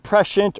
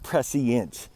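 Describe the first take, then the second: First: The middle consonant is an 'sh' sound. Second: The middle consonant is an 's' sound. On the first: "It's presh, like a S H, like shh" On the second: "or prescient, like I'm going to the sea"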